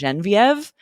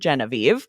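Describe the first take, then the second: First: The name is said with a French pronunciation. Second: The name is said with an English pronunciation. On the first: "the French pronunciation of" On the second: "just accept the English pronunciation"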